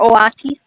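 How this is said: The word is pronounced with Spanish sounds. "in Spanish"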